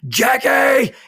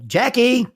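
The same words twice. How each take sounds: First: The name is screamed at full volume. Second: The name is called out only mildly.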